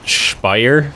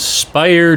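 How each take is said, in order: First: The name is said with a German-style pronunciation. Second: The name is said with an English-style pronunciation.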